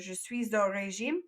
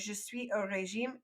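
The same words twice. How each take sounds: First: Suis runs into au with a z sound. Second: Suis and au are said apart, without z. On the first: "make the Z O régime sound to kind of say it a little bit fancier" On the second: "breaking it up"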